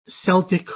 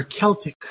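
First: "Celtic" said SEL-tik; soft S. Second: "Celtic" said KEL-tik; hard K. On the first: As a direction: open "Celtic" on an S. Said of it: "pronounced with a S". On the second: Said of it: "pronounced with a K sound". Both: Shown as a demonstration.

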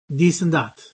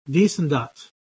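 First: "this and that" with a hard D and T instead of TH; Irish this and that. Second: "this and that" said a second time with a plosive D and T; this and that again. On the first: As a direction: say "dis and tat", stopping the TH. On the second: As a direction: repeat "dis and tat" with stopped consonants. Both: Shown as a demonstration. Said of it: "they would say this and that".

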